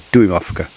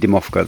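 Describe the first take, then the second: First: The first syllable is a longer 'doo-im' sound. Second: The first syllable is a short 'dim' sound. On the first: The speaker calls it right. "They're Duimovka, and it comes from uh, Duim is an inch" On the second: The speaker calls it wrong. "I've been saying that wrong. I've been saying Dimovka"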